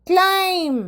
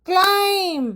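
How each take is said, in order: Both takes have the same delivery.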